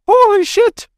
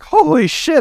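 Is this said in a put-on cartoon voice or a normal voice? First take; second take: cartoon voice; normal voice. First: It is said in a put-on leprechaun cartoon voice. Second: It is said in the speaker's normal voice.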